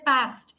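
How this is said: It is said in an American accent. "Americans use a different accent. They say past"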